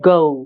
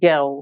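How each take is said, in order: First: It is said in an American accent. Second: It is said in a British accent. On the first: "আর এটা যদি আমেরিকানরা বলে কি হবে?" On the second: "এইটা যখন ব্রিটিশরা বলবে তখন গ্যাও"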